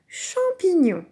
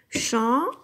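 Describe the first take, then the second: First: Said in the usual way. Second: Syllable by syllable. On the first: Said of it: "c'est le mot". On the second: Shown as a demonstration. Teacher claps "Champignon" together with the child, syllable by syllable. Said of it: "le taper dans les mains".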